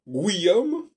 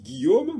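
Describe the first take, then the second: First: The u is sounded like w after g. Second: The u is silent; no w sound follows g. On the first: "ils disent Guillaume, et finalement le G a disparu" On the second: "mais on ne prononce pas le U"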